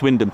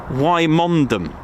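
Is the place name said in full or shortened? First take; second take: shortened; full. First: The name is said shortened, with letters dropped. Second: The name is said with every written syllable. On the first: This is how the name is actually said. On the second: This is how the name looks when read letter by letter. "If you look at it, it says"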